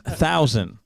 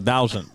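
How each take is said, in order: First: The word begins with a TH sound. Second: The word begins with a D sound. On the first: The speaker calls it right. "No, no, it's thousand" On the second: The speaker calls it wrong. "You say you say it with a D like a dinosaur"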